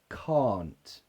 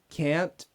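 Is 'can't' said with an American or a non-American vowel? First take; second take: non-American; American. First: The vowel is not the American one. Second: The vowel is the American one. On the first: "Just look at my mouth" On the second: "in American English, you don't have that problem"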